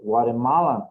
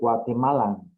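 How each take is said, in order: First: The word is said with an American pronunciation. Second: The word is said with a non-American pronunciation. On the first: "If you want to sound more uh, American" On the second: "let's say correctly"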